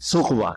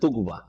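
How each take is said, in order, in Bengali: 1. শব্দটি th ধ্বনি দিয়ে শুরু হয়। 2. শব্দটি t ধ্বনি দিয়ে শুরু হয়। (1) "কোরআন পড়ার সময় আপনাকে সুকবাই পড়তে হবে" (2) "আপনারা জানেন তুকবা"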